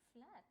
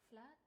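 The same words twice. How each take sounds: First: It is said in a sarcastic tone. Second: It is said in a disappointed tone.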